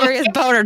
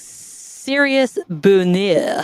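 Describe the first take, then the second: First: It is said in a plain English accent. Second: It is said with a put-on French accent. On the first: The hidden joke word is revealed. "get it serious boner" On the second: It sounds like a French word. "Imagine you're doing it in a French accent"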